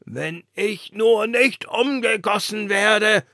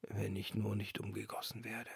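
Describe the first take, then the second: First: Higher, louder, slow fretting; worried lantern. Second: Much softer, trailing off; resigned lantern refrain. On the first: The lantern fretting to the wind about recasting. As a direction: dread it, drawn out. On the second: The lantern whispering its fear to herself, softly. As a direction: murmur the old fear. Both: A narrator's reading.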